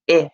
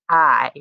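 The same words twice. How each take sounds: First: The vowel is the short i sound. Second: The vowel is the long i sound. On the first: "short I" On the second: "long I sound"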